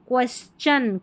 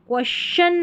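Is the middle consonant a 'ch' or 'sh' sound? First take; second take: ch; sh. First: The middle consonant is a 'ch' sound. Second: The middle consonant is a 'sh' sound. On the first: The speaker calls it right. "यहाँ पर टी आई को च पढ़ा जा रहा है" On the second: The speaker calls it wrong. "क्वेश्चन नहीं, श नहीं"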